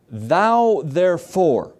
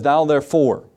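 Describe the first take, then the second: First: Thou therefore stretched slow and weighty; slow, deliberate scripture reading; slow drawn-out reading. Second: Said in the usual way. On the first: Shown as a demonstration. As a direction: linger on Thou therefore, each word drawn out.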